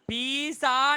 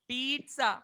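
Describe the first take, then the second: First: The middle sound is a plain 's'. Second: The middle sound is a 'ts'. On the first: The speaker calls it wrong. "මේක පීසා නෙමෙයි" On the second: The speaker calls it right. "T අකුරක් නැහැ. ඒත් sound එක එන්නේ කොහොමද?"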